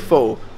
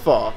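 First: The vowel sounds like 'oh'. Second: The vowel sounds like 'ah'. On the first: This is how it is said in the UK. "In the UK, we say pho" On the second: This is how it is said in Canada. "These guys from Canada say it's far"

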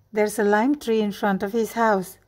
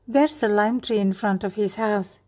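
Both takes have the same delivery.

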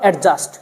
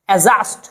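First: A d sound is heard before the j. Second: The d sound is dropped before the j. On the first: The speaker calls it wrong. "Not" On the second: The speaker calls it right. "ডিটাকে বাদ দিয়ে পড়তে হবে"

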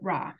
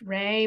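First: The vowel sounds like the one in 'saw'. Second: The vowel sounds like the one in 'say'. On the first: "but we call it Raw" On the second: "it might be pronounced Ray"

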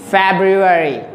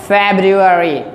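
No difference in how they are said.

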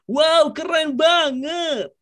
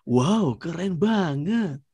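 First: The voice is high and cheerful. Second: The voice is deep with more bass. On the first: "yang up-nya itu agak sedikit cheers up" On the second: "Yang deep"

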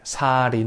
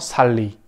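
First: The middle consonant is a flapped R sound. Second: The middle consonant is a clear L sound. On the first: The speaker calls it right. "en coreano esto se enlaza y sería la pronunciación como sari, como si fuera sari, la R" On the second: The speaker calls it wrong. "en español, si leemos tal cual, sería salí"

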